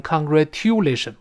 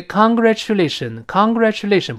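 First: "congratulation" with t-yoo in the middle; "congratulation" as con-gra-TYOO-lation; wrong tu pronunciation. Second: "congratulation" with chu in the middle; "congratulation" as con-gra-CHU-lation; correct ch pronunciation. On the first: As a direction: say "congratulation" with no ch, a plain tu. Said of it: "不要读成". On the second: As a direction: say "congratulation" blending t into ch. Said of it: "不要读成congratulation". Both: Shown as a demonstration.

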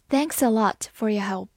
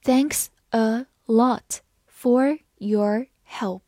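First: Said in the usual way. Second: Slow, careful model reading; read slowly. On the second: Shown as a demonstration. Teacher reading slowly so students can follow. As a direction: give every word its own beat. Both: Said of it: "好，慢慢来读".

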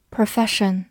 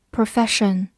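Both takes have the same delivery.

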